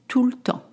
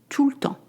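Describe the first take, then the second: The two takes are said the same way.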